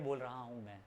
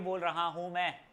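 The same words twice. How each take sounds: First: It is said softly with little energy. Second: It is shouted loudly with lots of energy. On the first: "एक बार धीरे बोल रहा हूं मैं" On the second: "एक बार चिल्ला के बोल रहा हूं मैं"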